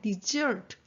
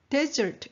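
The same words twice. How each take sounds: First: The stress is on the second syllable. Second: The stress is on the first syllable. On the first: It means to abandon or leave. "동사가 되면 desert, S-E-R-T의 액센트가 들어가면" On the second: It names a dry sandy region. "액센트가 첫 번에 강세가 하게 되면 desert가 되면 사막이 되거든요"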